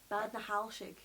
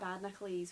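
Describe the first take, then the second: First: The name ends with a 'halshig' sound. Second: The name ends with a 'nacles' sound. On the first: The speaker calls it right. "now I learnt how to say it properly" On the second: The speaker calls it wrong. "I was calling it Badnacles, which is not right"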